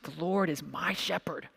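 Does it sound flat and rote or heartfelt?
heartfelt. It is said with heartfelt, personal conviction.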